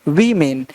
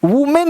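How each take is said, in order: First: "वीमेन" with long ee, low falling pitch; correct pronunciation. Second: "वुमेन" with oo, higher pitch; wrong pronunciation. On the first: Teacher corrects students, "वीमेन" with long ee in front. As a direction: say "वीमेन" like "vee-men", low. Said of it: "क्या पढ़ना है". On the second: Teacher rejects the misreading, "वुमेन" with oo in front. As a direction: say "वुमेन" like "woo-men", raised. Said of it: "वुमेन नहीं". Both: Shown as a demonstration.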